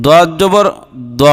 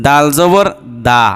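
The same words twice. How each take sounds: First: দ thick with rounded mouth; rounded dad. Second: দা without rounding; unrounded dal. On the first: Teacher showing thick rounded দ. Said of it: "একটু পুরু হবে, একটু গোল হবে মুখ". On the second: Teacher showing flat unrounded দা. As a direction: keep the lips flat on দা. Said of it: "গোল হবে না". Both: Shown as a demonstration.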